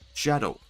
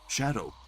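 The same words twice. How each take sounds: First: It is said in a put-on Knuckles voice. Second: It is said in his natural voice.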